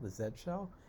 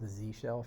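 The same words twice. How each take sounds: First: The letter Z is said the non-American way. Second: The letter Z is said the American way.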